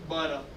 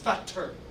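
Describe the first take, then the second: First: The middle t sounds like a d. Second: The middle t is a clear t. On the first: "we say" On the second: "In England they say"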